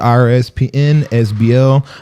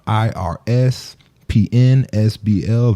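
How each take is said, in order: First: It is spelled out fast. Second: It is spelled out slowly.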